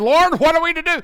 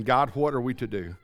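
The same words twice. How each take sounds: First: Pleading cry. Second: Much lower and softer, a heartbroken plea of "God, what are we to do?"; broken weeping plea. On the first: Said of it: "they cried, and they said". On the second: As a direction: sink the voice, broken and spent. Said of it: "they're broken, they're crying, they're weeping". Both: Acted.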